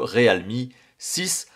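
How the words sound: It is said with a French pronunciation.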